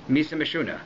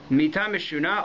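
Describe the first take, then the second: First: It is said in an Ashkenazic Yiddish pronunciation. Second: It is said in a Sephardic Hebrew pronunciation.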